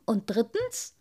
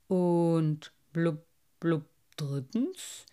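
First: Said in the usual way. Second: Ponderous fish question; curious carp. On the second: A narrator's reading. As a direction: ask it haltingly between bubbles. Carp echoes, curious, with bubbles.

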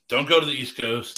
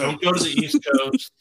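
First: Saying it again through a laugh. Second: High, loud, odd comic voice; loud mock warning. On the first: Real, not acted. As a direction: laugh while repeating the warning. Repeats the warning, laughing. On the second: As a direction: bellow the warning like a joke. Joking warning about the coasts.

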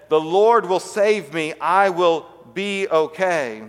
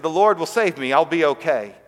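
First: Slow, drawn-out, louder refusal; emphatic calling up. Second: Said in the usual way. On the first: Retold or imitated. Stranded man answers the helicopter above, slow emphatic call. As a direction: stretch each word, calling it upward.

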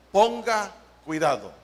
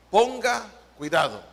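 Both takes have the same delivery.

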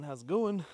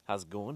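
First: Higher, louder hype greeting; excited greeting. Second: Said in the usual way. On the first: Shown as a demonstration. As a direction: pump it up like a host. Repeated greeting escalating.

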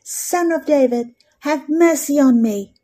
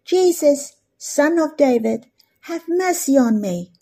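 First: Crying out all the more. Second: A lightly raised plea, higher on Jesus; crying out loudly. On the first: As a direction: push the plea harder, a mild mock cry. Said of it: "He cried out all the more". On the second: Preacher voicing the blind man calling to Jesus, mild raised plea. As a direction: call out for mercy, a mild mock cry. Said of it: "this blind man cried out loudly". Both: Retold or imitated.

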